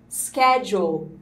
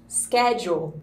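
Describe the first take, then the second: Both takes have the same delivery.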